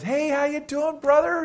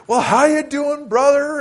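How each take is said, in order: First: Put-on high, bright-eyed hello to an old friend; retold excited greeting much higher than his usual voice. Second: Much higher, louder, slowed hammed-up church greeting; a friend mocking his churchy greeting, loud and slow. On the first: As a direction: gush the hello much higher, like spotting a long-lost brother. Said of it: "And I got all excited". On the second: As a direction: overdo the pious hello, teasing.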